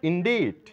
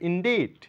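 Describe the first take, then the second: The two takes are said the same way.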